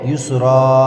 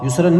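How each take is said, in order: First: The word ends with a long 'a' vowel. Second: The word ends with a final 'an' sound. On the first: The speaker calls it right. "बल्कि युसरा" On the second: The speaker calls it wrong. "युसरन नहीं पढ़ने के"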